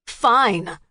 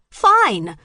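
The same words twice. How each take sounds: First: Louder angry yell. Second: High, loud furious scream. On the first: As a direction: snap back, loud. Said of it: "Max yelled". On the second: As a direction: scream it back at her. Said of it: "Stevie screamed". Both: A narrator's reading.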